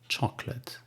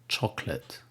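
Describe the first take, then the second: No difference in how they are said.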